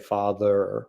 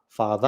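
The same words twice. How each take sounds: First: The word ends with an audible R sound. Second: The word ends without an R sound. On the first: "I do sometimes emphasize having an R on the end of words" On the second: "most people in Australia would say father"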